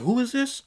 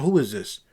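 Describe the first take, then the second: First: Baffled. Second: Said in the usual way. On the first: Retold or imitated. Retold baffled reaction, high pitched.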